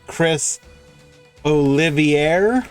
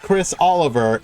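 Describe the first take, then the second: First: The surname is said with four syllables. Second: The surname is said with three syllables. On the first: The speaker calls it right. "It's Chris Olivier" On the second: The speaker calls it wrong. "It's not Chris Oliver"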